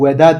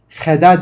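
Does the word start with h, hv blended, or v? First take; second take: v; h. First: It starts with a plain v sound only. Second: It starts with a plain h sound only. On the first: "veda değil" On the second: "heda değil"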